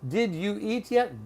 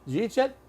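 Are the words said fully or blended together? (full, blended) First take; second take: full; blended. First: Every word is said fully and separately. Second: The words blend fast into two syllables.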